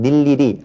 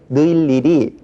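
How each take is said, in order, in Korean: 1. 첫 모음은 그냥 'i'예요. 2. 첫 모음은 이중모음 'ui'예요. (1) "그냥 닐일이 하면 되겠죠" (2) "억지로 느일일이 자 이렇게 발음할 필요는 없고"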